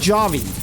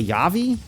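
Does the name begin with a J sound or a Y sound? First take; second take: J sound; Y sound. First: The name begins with a hard J sound. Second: The name begins with a Y sound. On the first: "Is that a hard J?" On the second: "pronounced more like a Y, like a Yavi?"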